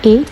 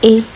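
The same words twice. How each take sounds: First: The letter is given its English pronunciation. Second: The letter is given its English pronunciation.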